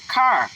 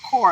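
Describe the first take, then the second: First: The vowel sounds open, like 'car'. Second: The vowel sounds rounded, close to 'core'. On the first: This is how people in Michigan say it. "We say car" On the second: This is how people on the West Coast say it. "They were like core"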